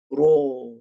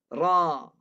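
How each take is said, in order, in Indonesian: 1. Bibir dimajukan ke depan dan dibulatkan. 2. Bibir direntangkan lebar, tidak dibulatkan. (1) "Bunyinya terlampau tebal"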